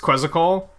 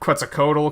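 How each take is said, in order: First: The T in the name is silent. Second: The T in the name is sounded.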